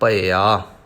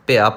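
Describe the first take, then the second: First: The first syllable has an 'a-i' vowel sequence. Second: The first syllable has only an 'i' vowel. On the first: The speaker calls it right. "ਇਸ ਕਰਕੇ ਉਚਾਰਨ ਕਰਨਾ ਹੈ ਭਇਆ" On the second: The speaker calls it wrong. "ਭਿਆ ਭਿਆ ਪੜ੍ਹ ਜਾਂਦੇ ਨੇ ... ਜੋ ਉਚਾਰਨ ਸਹੀ ਨਹੀਂ ਹੈ"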